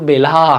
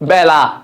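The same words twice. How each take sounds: First: The first vowel is said with a closed mouth. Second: The first vowel is said with an open mouth. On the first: The speaker calls it wrong. "নট বেলা" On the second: The speaker calls it right. "তখন এর উচ্চারণ বিপরীত হবে"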